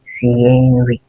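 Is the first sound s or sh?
s. It starts with a plain s sound.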